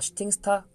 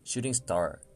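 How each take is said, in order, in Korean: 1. 한국식 발음으로 말합니다. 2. 영어 원어민 발음으로 말합니다. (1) "발음 코칭을 받았던" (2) "no no, shooting star"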